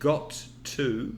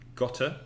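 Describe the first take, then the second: First: The two words are said slowly and separately. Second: The two words run together into one reduced word.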